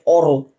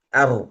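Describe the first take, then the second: First: The vowel is dark and rounded, like 'o'. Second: The vowel is light and open, like 'a'. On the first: The speaker calls it wrong. "Tidak sampai or" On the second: The speaker calls it right. "tapi ar ar ar"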